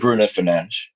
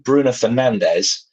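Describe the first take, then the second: First: The name is pronounced with Portuguese sounds. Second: The name is pronounced with English sounds. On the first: "to Bruno Fernandes, ... the correct Portuguese pronunciation" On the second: "you change from Bruno Fernandes"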